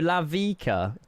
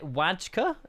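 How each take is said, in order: First: The name begins with an L sound. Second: The name begins with a W sound. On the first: The speaker calls it right. "No, Lavika. ... the W's pronounced like La" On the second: The speaker calls it wrong. "Is it Wajka?"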